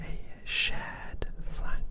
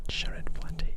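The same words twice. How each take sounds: First: Said in the usual way. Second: "Shar ed flat T" broken into shar, ed, flat, tee; syllable-split wordplay. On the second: Shown as a demonstration. ASMR host toying with trigger words, "Shar ed flat T" in whispered syllables. Plays with the word's sounds.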